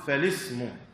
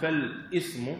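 First: The article links on with no glottal stop. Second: A glottal stop is pronounced before the article. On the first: The speaker calls it right. "نقول فالاسم ... لأن هذه همزة وصل" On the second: The speaker calls it wrong. "لا نقول فالاسم"

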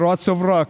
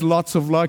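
First: The L sounds are replaced with R sounds. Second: The words are said with clear L sounds. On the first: "because he can't pronounce the L" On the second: "when the time he says lots of luck"

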